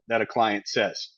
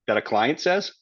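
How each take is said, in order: First: The voice falls at the end. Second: The voice rises at the end.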